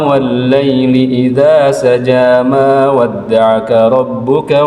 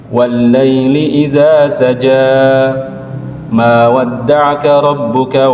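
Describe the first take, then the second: First: The verses run together with no pause between them. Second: Each verse ends softly, with a pause before the next. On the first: "diwasol dia, jadi disambung" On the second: "dibiarkan dia mengalir aja sesuai dengan keluarnya suara"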